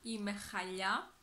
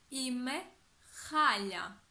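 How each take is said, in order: First: The last word is stressed on its last syllable. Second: The last word is stressed on its first syllable. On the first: It refers to carpets. The speaker calls it wrong. "Όχι είμαι χαλιά, γιατί έχει εντελώς διαφορετικό νόημα" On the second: I feel terrible. The speaker calls it right. "Προσέξτε όμως τον τονισμό"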